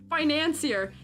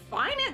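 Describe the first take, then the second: First: It is said with a French '-ier' ending. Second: It is said like the English word finance. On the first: The speaker calls it right. "that's how you say it" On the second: The speaker calls it wrong. "so not finance"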